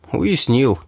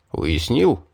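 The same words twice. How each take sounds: First: "Уяснил" as a falling answer; confirming. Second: "Уяснил" rising as a question. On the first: Pupil answers the mage's check, confirming. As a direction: confirm "Уяснил" firmly, dropping at the end. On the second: Mage checks his pupil has understood, questioning. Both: A narrator's reading.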